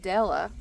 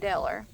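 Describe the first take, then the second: First: The name ends in a plain 'uh' vowel. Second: The name ends with an 'er' sound. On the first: This is the standard form of the name. "she wouldn't say Della" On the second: This is how the family elders say it. "she'd say Deller"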